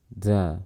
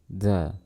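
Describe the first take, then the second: First: A puff of breath is heard with it. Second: A puff of breath is heard with it.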